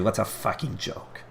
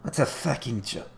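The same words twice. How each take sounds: First: Slow, drawn-out mock of a teammate's gripe; a lightly voiced, badly faked Rasmus line; Rasmus impression. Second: Second try, a bit higher and slow; a lightly voiced, failed Rasmus mock; Rasmus impression, retried. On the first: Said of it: "That was a terrible Rasmus impression". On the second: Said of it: "I can't do an impression of Rasmus".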